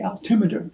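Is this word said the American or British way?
American. The word has American-style syllable stress. "we would say altimeter in American English"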